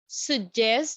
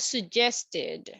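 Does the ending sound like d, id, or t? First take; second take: d; id. First: The ending is a short d sound. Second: The ending is an extra id syllable.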